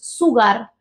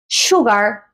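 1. Empieza con un sonido 's' sencillo. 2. Empieza con un sonido 'sh'. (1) "no es sugar" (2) "un sonido parecido a lo que es la ese hache"

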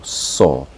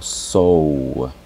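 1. La vocal es un sonido 'aw' abierto y simple. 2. La vocal se desliza como la 'oh' en rose. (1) "yo digo saw" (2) "no digo sow, porque estaría pronunciando otro patrón"

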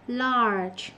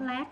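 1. Từ kết thúc bằng âm ge mềm, có rung. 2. Từ kết thúc bằng một âm t ngắn, bị cắt cụt. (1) "Nó là large" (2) "Nó không lát"

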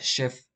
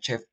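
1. La palabra empieza con sonido sh. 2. La palabra empieza con sonido ch. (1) "se pronuncia chef, como si fuera SH" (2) "de hecho en inglés no se pronuncia chef"

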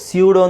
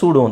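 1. ಈ ಪದ 'syoo' ಶಬ್ದದಿಂದ ಶುರುವಾಗುತ್ತೆ. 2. ಈ ಪದ ಸಾಮಾನ್ಯ 'soo' ಶಬ್ದದಿಂದ ಶುರುವಾಗುತ್ತೆ. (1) "ಸ್ಯೂಡೋ ಅಂತಲೂ ಹೇಳ್ಬೋದು" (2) "ಸೂಡೋ ಅಂತಲೂ ಹೇಳ್ಬೋದು"

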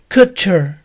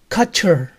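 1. La primera vocal suena como oo. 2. La primera vocal no es un sonido oo. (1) "con U" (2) "me dijo que se debía pronunciar"

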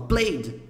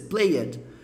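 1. O final -ed é unido em uma única sílaba. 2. O final -ed é pronunciado como uma sílaba separada. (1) "Mas não, não fala" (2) "Porque o E tá lá e você quer falar o E"

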